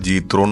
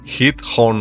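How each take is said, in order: First: The name begins with a J sound. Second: The name begins with an H sound. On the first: The speaker calls it wrong. "പല ആൾക്കാരും ഞാൻ പണ്ട് വിചാരിച്ചിരുന്നത്" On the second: The speaker calls it right. "അങ്ങനല്ല, ഇത് ഹീത്ത് ഹോൺ എന്നാണ്"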